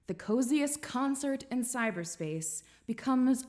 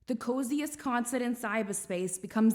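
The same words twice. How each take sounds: First: It is said in the speaker's plain accent. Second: It is said in a New York accent. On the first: The speaker calls it wrong. "I should have been saying this entire thing in a New York accent" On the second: The speaker calls it right. "I'm going to start over from the beginning"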